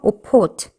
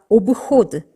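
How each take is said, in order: First: The middle consonant is a voiceless p. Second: The middle consonant is a voiced b. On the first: The speaker calls it right. "브가 아니고 브에 해당하는 무성음 프로 바뀌면서" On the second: The speaker calls it wrong. "어느 누가 오브호드 이렇게 발음을 하겠어요"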